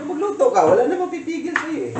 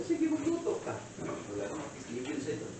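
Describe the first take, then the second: First: High, louder mock reply after a laugh; high-pitched teasing retort. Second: Soft teasing aside. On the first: Repeats retold reply after laughing. (matinis na pabirong sagot) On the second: Retold or imitated. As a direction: toss it off very softly. Retold teasing reply, first take. (mahinang pabirong sagot)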